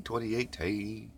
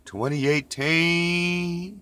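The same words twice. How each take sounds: First: Said in the usual way. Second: Sing-song. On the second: Acted. Repeats date playfully.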